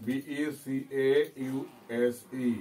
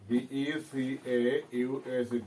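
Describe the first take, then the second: No difference in how they are said.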